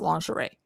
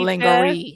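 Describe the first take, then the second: First: The word has its standard pronunciation. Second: The word has a playful altered pronunciation. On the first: The speaker calls it right. "I know it's pronounced lingerie" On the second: The speaker calls it wrong. "I find it fun to say it lingerie"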